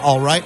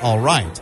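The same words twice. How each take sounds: First: The pitch rises from the first syllable to the second. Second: The pitch falls from the first syllable to the second. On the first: "the first syllable of the first two words is at a lower pitch than the second syllable" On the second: "the first syllable of the last word is at a higher pitch than the second syllable"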